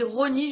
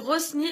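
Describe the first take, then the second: First: The name is said without an s sound. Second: The name is said with an s sound. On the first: This is reportedly how others say it. "apparemment ça se dit Rony" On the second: This is how the speaker usually says it. "moi je dis Rosny"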